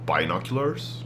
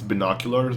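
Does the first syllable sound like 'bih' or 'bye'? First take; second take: bye; bih. First: The first syllable sounds like 'bye', as in bicycle. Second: The first syllable has a short 'bih' vowel. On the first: "it's bicycle" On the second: "it just sounds better"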